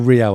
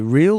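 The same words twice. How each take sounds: First: It sounds like the Real in Real Madrid. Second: It sounds like the ordinary English word real.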